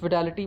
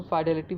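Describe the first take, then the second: First: फिडेलिटी said with short first vowel, "fi-DAA-li-tee"; फिडेलिटी opening on "fi", not "fai"; pronunciation variant. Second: फिडेलिटी said as "FAI-de-li-tee"; alternative pronunciation. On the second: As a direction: open फिडेलिटी with a long "fai", like "eye". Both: Shown as a demonstration. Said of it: "दोनों तरह से पढ़ा जा सकता है".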